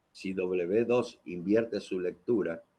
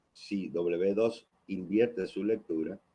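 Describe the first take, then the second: No difference in how they are said.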